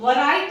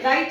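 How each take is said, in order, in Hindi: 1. r से पहले w की आवाज़ बोली जाती है। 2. w साइलेंट है; यह r से शुरू होता है। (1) "राइट को भी हम वराइट नहीं पढ़ते" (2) "राइट ही पढ़ते हैं"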